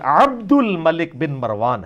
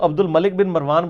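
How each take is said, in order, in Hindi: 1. Abdul को गले वाली 'ain ध्वनि के साथ बोला जाता है। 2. Abdul को गले वाली 'ain ध्वनि के बिना बोला जाता है। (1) "आइन तो आपने भी नहीं बोली" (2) "ये भी गलत है"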